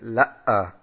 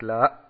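First: The vowel breaks with a catch before ending. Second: The vowel is cut off short and abrupt. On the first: "dass sie sagen La'a. Das ist an sich falsch" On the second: "dass man nicht dann abhackt, dass man nicht sagt La"

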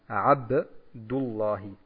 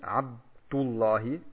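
First: The b is released with a short echoing bounce. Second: The b is held without an echoing bounce. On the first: The speaker calls it right. "beim Ba ist ein Qalqala, yani durchzuführen" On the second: The speaker calls it wrong. "man sagt nicht Abdullahi"

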